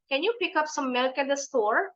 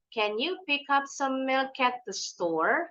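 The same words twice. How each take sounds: First: It is said fast. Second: It is said slowly.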